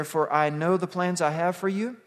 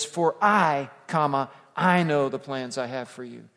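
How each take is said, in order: First: Said in the usual way. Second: I, then I again, each pressed hard and loud; the pastor hammers "I" twice to show the Hebrew emphasis; emphatic repeated I. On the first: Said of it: "in the Hebrew it says". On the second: Shown as a demonstration. Stress the doubled "I" in "For I, comma, I know" and hit both hard. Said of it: "That repeated word is for emphasis".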